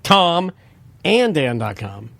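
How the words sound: The word Tom is strongly emphasized. The speaker calls it wrong.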